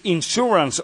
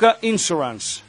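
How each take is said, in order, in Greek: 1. Ο τόνος πέφτει στη συνήθη συλλαβή του. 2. Ο τόνος έχει μετακινηθεί από τη συνήθη συλλαβή του. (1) "όπως είναι το σωστό" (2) "Άσχετα άμα εμείς βάζουμε λίγο τον τόνο, τον παίρνουμε και τον πάμε λίγο πιο εκεί"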